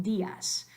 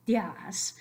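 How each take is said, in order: First: DÍAS split as DÍ-as; two-syllable días. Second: DÍAS merged into "dyahs"; one-syllable días. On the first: Teacher giving the wanted form, two-syllable DÍ-as. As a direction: stress the í of días, then a separate as. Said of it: "we want días". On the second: Teacher having fun with the wrong form, días as "dyahs". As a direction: run días into one long beat. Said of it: "Say it one syllable". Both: Shown as a demonstration.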